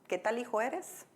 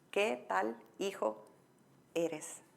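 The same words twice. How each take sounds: First: The question is said at a normal pace. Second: The question is said more slowly.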